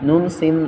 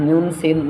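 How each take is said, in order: The two takes are said the same way.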